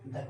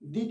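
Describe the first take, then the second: First: The word is said with a short 'uh' vowel. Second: The word is said with a long 'ee' vowel. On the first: The next word begins with a consonant sound. "वहां द करेंगे" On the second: The next word begins with a vowel sound. "दी के रूप में करते हैं"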